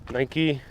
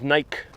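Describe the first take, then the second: First: It is said like the sportswear brand name. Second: It is not said like the sportswear brand.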